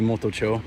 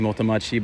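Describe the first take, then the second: First: The name ends with the syllable 'chō'. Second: The name ends with the syllables 'machi'. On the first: The speaker calls it right. "it's actually motocho" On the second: The speaker calls it wrong. "I used to always say"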